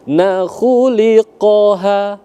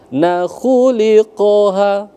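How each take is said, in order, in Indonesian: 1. Vokal pada 'li' pendek, satu ketukan. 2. Vokal pada 'li' pendek, satu ketukan.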